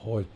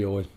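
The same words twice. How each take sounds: First: The word starts with an audible H sound. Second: The word starts with no H sound. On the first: The speaker calls it wrong. "not "Hoi."" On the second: The speaker calls it right. "maybe "Hoi," ... It's a silent H"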